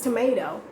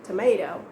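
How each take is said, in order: First: The middle T is pronounced soft and light. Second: The middle T is pronounced soft and light.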